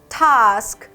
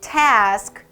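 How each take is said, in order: First: It is said in a British accent. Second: It is said in an American accent. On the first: "영국식 발음으로 들어가면" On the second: "task 이렇게 읽지만"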